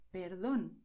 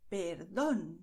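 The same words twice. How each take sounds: First: Perdón at natural length, stressed on "dón"; everyday Spanish perdón, short final stress. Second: Perdón with a long, loud final "dón"; exaggerated teaching stress on the last syllable of perdón. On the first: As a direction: say perdón compactly, without stretching the "dón". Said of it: "This is the way we speak in Spanish". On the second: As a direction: stretch and punch the "dón" in perdón. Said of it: "then you go and stress it". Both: Shown as a demonstration.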